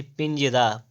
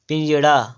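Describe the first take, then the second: First: "पिंजरा" with a plain r; corrected r. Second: "पिंजड़ा" with retroflex ṛ; wrong flap. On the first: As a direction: tap a simple r in "पिंजरा". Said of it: "पिंजरा होता है". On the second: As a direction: curl the tongue in "पिंजड़ा". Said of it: "पिंजड़ा नहीं". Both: Shown as a demonstration.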